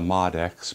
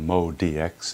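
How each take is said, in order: First: The first part is said as one syllable. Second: The first part is said as two syllables. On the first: The speaker calls it wrong. "Not the Mod X" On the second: The speaker calls it right. "is how they pronounce it"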